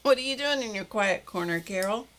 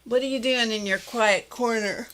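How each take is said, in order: First: Retake with a laugh. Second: Words stretched by a yawn. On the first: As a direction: repeat it laughing, apologetic. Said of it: "that was really rude". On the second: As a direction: talk through a yawn. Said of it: "that yawn just snuck right up". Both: Real, not acted.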